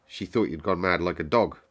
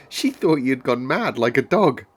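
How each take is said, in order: First: Unimpressed, level delivery; matter-of-fact, no lift in pitch; not at all admiring. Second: Loud, high and animated; lively outburst, pitched up; too admiring. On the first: Girl to the sick boy, not at all admiringly. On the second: Girl teasing the sick boy, too excitedly admiring. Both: A narrator's reading. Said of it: "Not at all, admiringly".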